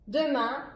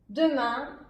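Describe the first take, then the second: Both takes have the same delivery.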